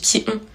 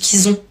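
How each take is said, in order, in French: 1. Il n'y a pas de son z avant 'ont'. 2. Un son z fait la liaison avec 'ont'. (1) "alors qu'on dit qui ont" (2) "À chaque fois, je dis qu'ils ont"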